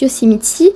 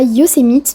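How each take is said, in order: First: The name is said with American English pronunciation. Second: The name is said with French-style pronunciation.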